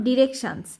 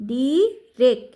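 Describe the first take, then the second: First: Said in the usual way. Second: "ডিরেক" split as ডি, রেক; teacher breaking "ডিরেক" into syllables; sounding out syllables. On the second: Shown as a demonstration. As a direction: say "ডিরেক" in two separate beats. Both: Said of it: "T I O N এর উচ্চারণ".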